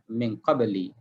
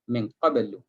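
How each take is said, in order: First: The last word ends with an 'i' vowel. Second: The last word ends with a 'u' vowel. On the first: The speaker calls it wrong. "tidak dibaca dengan min qabli" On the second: The speaker calls it right. "tetapi dibaca dengan min qablu"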